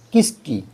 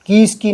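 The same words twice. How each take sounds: First: किसकी with a short first i; correct short vowel. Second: किसकी high-pitched, as "kees-kee"; mock error, long ī opening किसकी; wrong long vowel. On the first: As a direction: keep the ki of किसकी brief. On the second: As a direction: stretch the first i of किसकी, higher. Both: Shown as a demonstration. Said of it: "किसकी नहीं".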